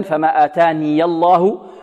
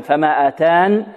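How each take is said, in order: First: فما آتاني الله read slowly with the ياء voiced and moving; joined reading. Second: فما آتان read slowly, stopping on the nun without ياء; pause reading. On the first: Teacher demonstrating the joined reading. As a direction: carry آتاني into الله with the ي sounded. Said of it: "في الوصل يثبتها متحركة". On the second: Teacher demonstrating the pause form. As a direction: end فما آتان with no final vowel. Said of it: "وفي الوقف لو فيها وجهان". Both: Shown as a demonstration.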